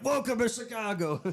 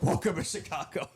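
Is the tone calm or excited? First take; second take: excited; calm. First: It is said in an excited, pumped tone. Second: It is said in a calm, even tone. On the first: The greeting sounds pumped up. "You sound more excited than me" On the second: The greeting sounds professional. "I'm more like professional"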